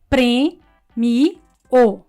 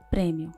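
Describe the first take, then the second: First: The word is split into three separate syllables. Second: The word is said in two syllables. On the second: "Só duas sílabas"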